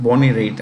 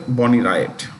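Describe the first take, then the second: First: [name] said like "rate"; corrected surname pronunciation. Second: [name] said like "RY-at"; mispronounced surname. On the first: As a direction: say [name] as one syllable, rhyming with "late". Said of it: "No, no, it's [name]". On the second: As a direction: say [name] to rhyme with "riot". Mistaken surname pronunciation, corrected next line. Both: Real, not acted.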